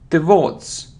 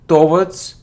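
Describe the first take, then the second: First: The stress is on the second syllable. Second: The stress is on the first syllable. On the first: The speaker calls it right. "The stress is on the second syllable" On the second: The speaker calls it wrong. "It isn't towards"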